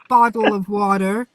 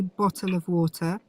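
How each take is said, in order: First: Bottle and water are said with D-like sounds. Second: Bottle and water are said with clear T sounds. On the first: The speaker calls it wrong. "The way Americans say bottle of water, however, bottle of water with D's in" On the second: The speaker calls it right. "the way that I say bottle of water is correct because the word bottle and the word water both have T's in"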